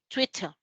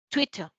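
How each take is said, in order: First: The middle t is a clear t sound. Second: The same.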